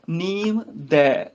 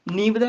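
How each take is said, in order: First: Slow ਨੀਮ, gap, long ਦੈ; ਨੀਮ ਦੈ separated. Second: ਨੀਮ ਦੈ run together as one word; ਨੀਮ ਦੈ joined. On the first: Teacher giving the correction, ਨੀਮ ਦੈ slow and apart. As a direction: split ਨੀਮ and ਦੈ into two drawn-out words. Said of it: "ਨੀਮ ਦੈ ਇਕੱਠਾ ਨਹੀਂ". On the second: Teacher showing the mistake, ਨੀਮ ਦੈ joined up. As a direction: leave no gap in ਨੀਮ ਦੈ. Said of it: "ਇਕੱਠਾ ਨਹੀਂ ਪੜ੍ਹਨਾ". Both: Shown as a demonstration.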